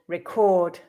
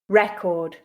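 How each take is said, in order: First: The stress is on the second syllable. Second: The stress is on the first syllable. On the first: It is used as a verb. "the second syllable with the verbs" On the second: It is used as a noun. "stressing the first syllable with the nouns"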